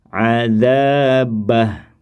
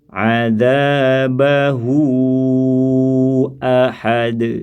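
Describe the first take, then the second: First: The final vowel is dropped and the word stops. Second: The final vowel is held long into the next word. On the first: The reader pauses at this word. "hilang bunyi panjangnya" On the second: The reading continues without a pause. "kembali normal lagi dibaca empat"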